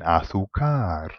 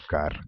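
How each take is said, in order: First: The stress falls on a shifted syllable. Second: The stress falls on the standard syllable. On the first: The speaker calls it wrong. "he was putting the emphasis in the completely wrong place" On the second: The speaker calls it right. "Can you hear where the emphasis is?"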